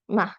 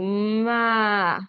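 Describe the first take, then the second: First: The sounds are blended quickly together. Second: The sounds are stretched out slowly. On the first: "say it fast" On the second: "stretch it out and say it slowly"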